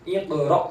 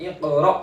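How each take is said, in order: No difference in how they are said.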